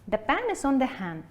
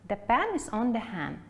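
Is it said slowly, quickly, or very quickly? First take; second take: quickly; slowly. First: It is said somewhat quickly. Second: It is said at a moderate pace.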